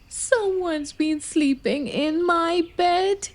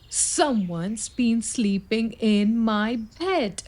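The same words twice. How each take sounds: First: It is said in a high, squeaky voice. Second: It is said in a huffy, annoyed voice.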